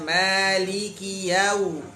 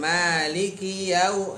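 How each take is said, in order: First: The 'li' syllable is given its full length. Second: The 'li' syllable is clipped straight into 'k'. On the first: The speaker calls it right. "liki harusnya maliki yau" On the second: The speaker calls it wrong. "Bukan maliki yau. Jadi kalau langsung lik, li-nya nggak dapat haknya"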